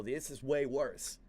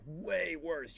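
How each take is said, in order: First: Said in the usual way. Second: "way" drawn out long and slow; stress on WAY. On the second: Retold or imitated. Warning her about the edible, "way" stretched for emphasis.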